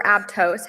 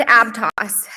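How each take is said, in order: First: Aptos ending in a long "tohs"; alternate pronunciation. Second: Aptos ending in an open "toss"; alternate pronunciation. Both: Real, not acted. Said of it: "however you say it".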